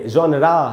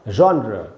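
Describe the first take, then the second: First: The word ends with a full 'aa' vowel. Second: The word ends with a short, weak vowel. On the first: The speaker calls it wrong. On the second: The speaker calls it right.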